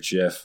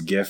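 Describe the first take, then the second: First: The word begins with a j sound. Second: The word begins with a hard g sound. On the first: "I'm gonna pronounce it in the laziest way possible, which is JIF" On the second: "I don't care if it's GIF or JIF"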